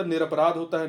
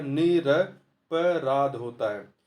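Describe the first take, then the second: First: Said in the usual way. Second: निरपराध said very slowly, each syllable separate; teacher slowly dictating निरपराध; slow, clear teaching repeat. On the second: Shown as a demonstration. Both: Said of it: "निरपराधी नहीं होता".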